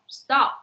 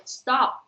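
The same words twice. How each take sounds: No difference in how they are said.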